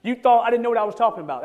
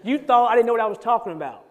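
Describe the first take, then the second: First: Plain restatement. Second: California way of saying. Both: Shown as a demonstration. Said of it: "that's how you would say it".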